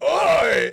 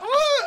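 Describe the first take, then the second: First: It is said in a gruff, outraged voice. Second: It is said in a squeaky Olive Oyl voice.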